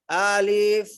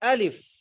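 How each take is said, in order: First: The word is drawn out slowly. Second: The word is said quickly. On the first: The speaker calls it wrong. "ये पढ़ना गलत है" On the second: The speaker calls it right. "अलिफ जल्दी पढ़ेंगे"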